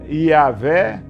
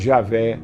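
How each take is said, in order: First: The word begins with a Y sound. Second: The word begins with a J sound. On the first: This is the Hebrew pronunciation. "no hebraico não existe J. Então o Y tem a pronúncia Iavé" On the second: This is the Portuguese pronunciation. "que nós conhecemos aqui no português como Javé"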